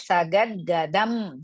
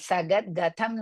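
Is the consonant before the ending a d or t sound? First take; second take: d sound; t sound. First: The consonant before the ending is a d. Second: The consonant before the ending is a t. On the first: The speaker calls it right. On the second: The speaker calls it wrong.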